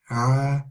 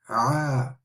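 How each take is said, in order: First: The throat sound is softer and less forceful. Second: The throat sound is strong and forceful. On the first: "Not as strong as the way uh, as I pronounce it" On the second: "From the middle of the throat, like the ha, with a strong sound"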